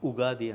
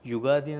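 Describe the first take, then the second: First: The word begins with a plain 'u' sound. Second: The word begins with a 'y' sound. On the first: "ಕೆಲವೊಂದು ಉಗಾದಿ ಅಂತೇಳಿ pronounce ಮಾಡ್ತಾರೆ" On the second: "ಯುಗಾದಿ ಅಂತ ಕೆಲವು ಮಂದಿ pronounce ಮಾಡ್ತಾರೆ"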